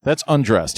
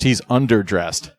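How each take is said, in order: First: "undressed" said as the contrasting word, pitched higher; stress on undressed. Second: "underdressed" drawn out slowly on UNDER; slow, deliberate "UNDER-dressed"; stress on underdressed. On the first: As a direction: correct them by marking "undressed". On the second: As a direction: correct them by leaning on "UNDER" in "underdressed". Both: Real, not acted.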